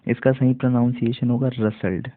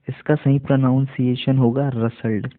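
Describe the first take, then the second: No difference in how they are said.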